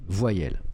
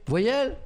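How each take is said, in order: First: Said in the usual way. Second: Voyelle asked much higher, with a sharp rising disbelief; mock a classmate's disbelief at "Voyelle"; high, louder, incredulous "Voyelle?" rising at the end. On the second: Shown as a demonstration. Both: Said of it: "Vous imaginez un cours de récré?".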